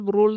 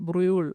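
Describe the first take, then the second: First: The vowel is a plain 'oo' sound. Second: The vowel is a rounded 'ü' sound. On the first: The speaker calls it wrong. "ബ്രൂൾ എന്ന് ആദ്യമൊക്കെ പറഞ്ഞു" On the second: The speaker calls it right. "ബ്രൂളല്ല ബ്രൂൾ"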